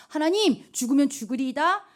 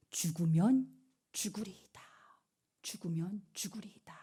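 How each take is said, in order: First: Louder, pressing prayer; fervent plea. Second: Hushed vow. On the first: Esther praying before going to the king, louder and fervent. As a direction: cry out to God with resolve. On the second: Preacher whispering Esther's vow to the youth. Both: Acted.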